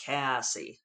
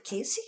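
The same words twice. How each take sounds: First: Cassie in her own Western American drawl; low Western American take on Cassie. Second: Cassie said as "Casey", imitating a New Zealander; higher New Zealand pronunciation of Cassie; Kiwi accent. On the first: Shown as a demonstration. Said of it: "Western U S drawl". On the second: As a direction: lift Cassie high and questioning, Kiwi-style. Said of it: "and she says it".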